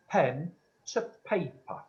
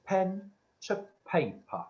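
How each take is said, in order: First: Said in the usual way. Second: Slow, drawn-out spirit command. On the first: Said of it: "You are?". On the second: Retold or imitated. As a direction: spell it out slowly like a voice from beyond. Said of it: "and Spirit said".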